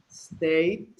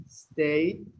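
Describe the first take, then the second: Both takes have the same delivery.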